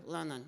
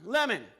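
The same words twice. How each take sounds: First: Said in the usual way. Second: Lemon repeated high and loud; echoing the puppet's absurd answer; incredulous echo. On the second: Real, not acted. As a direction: echo it back in amazement. Ventriloquist echoes.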